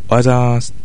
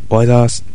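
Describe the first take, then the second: The two takes are said the same way.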